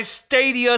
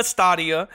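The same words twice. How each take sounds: First: "Stadia" as STAY-dee-uh; long-A pronunciation. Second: "Stadia" as STAH-dee-uh; ah pronunciation. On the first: Host offering both names, "Stadia" said STAY-dee-uh. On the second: Host offering both names, "Stadia" said STAH-dee-uh. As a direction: say "Stadia" with an open ah. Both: Shown as a demonstration. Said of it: "It's pronounced sta and then dia".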